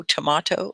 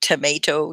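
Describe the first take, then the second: First: "tomato" said to-MAH-to; "tomato" with stressed MAH, British style; British-style pronunciation. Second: "tomato" said to-MAY-to; "tomato" with stressed MAY, American style; American pronunciation. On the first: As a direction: say "tomato" with AH in the middle. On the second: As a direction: say "tomato" with a long AY in the middle. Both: Shown as a demonstration. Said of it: "it's just different".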